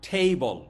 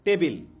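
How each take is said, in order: First: It ends with a reduced 'bl' sound. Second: It ends with a full 'bil' syllable. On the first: The speaker calls it right. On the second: The speaker calls it wrong.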